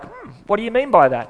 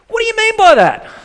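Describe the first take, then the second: First: It is asked in a gentle, curious tone. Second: It is asked in a harsh, aggressive tone.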